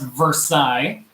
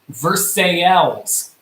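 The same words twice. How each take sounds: First: It is said the French way. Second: It is said the local Kentucky way. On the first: The speaker calls it wrong. "it is not pronounced Versailles" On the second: The speaker calls it right. "this city is pronounced Versailles"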